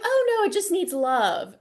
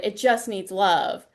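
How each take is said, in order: First: Said in the usual way. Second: "It just needs love" said slower, with a wry lean on "just"; slow wry quote. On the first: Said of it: "And she's like". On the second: Retold or imitated. Warning students, slowly quoting "It just needs love" with a wry stress on "just". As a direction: drag out "just" knowingly, as a warning. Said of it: "don't do it".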